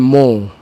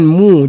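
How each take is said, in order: First: The vowel sounds like an open o. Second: The vowel sounds like a rounded u. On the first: The speaker calls it wrong. "jangan mo" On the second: The speaker calls it right. "mim bagi depan mu"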